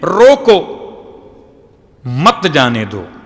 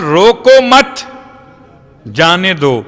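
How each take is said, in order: First: There is a pause right after 'roko'. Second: There is a pause right after 'mat'.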